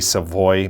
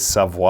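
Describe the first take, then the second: First: The name is said with an English pronunciation. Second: The name is said with a French pronunciation. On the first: This is how other people commonly say it. The speaker calls it wrong. "I know they say Savoy" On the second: This is the proper way to say the name. The speaker calls it right. "That's the proper pronunciation of this guy's name"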